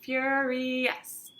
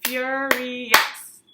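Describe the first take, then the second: First: Furious spaced, counting each syllable; counted syllables. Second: Furious split into beats, clapped; clapped syllables. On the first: Teacher counting syllables of Furious with the class. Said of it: "Count it". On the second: Teacher clapping out the word Furious for the class. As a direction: say Furious beat by beat. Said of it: "Let's clap that word". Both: Shown as a demonstration.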